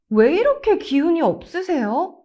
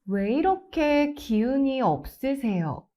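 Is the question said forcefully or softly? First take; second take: forcefully; softly. First: It is forceful, with stress on 왜 이렇게. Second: It is soft and gentle throughout. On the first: The listener is blamed for having no energy. The speaker calls it wrong. "If you stress 왜 이렇게" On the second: The speaker shows gentle concern. The speaker calls it right. "Soften your voice. ... Always stay soft"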